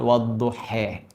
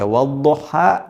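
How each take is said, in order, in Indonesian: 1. Kata ini berakhir dengan vokal 'e'. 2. Kata ini berakhir dengan vokal 'a' terbuka. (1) "dengan e dengan imalah" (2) "Kita baca wadduha"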